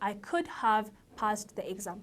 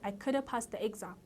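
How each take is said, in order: First: 'Could have' is said fully, with each word clear. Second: 'Could have' is reduced and run together. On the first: "ከምትሉ" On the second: "could haveም እንዳልኳችሁ could ይሆናል"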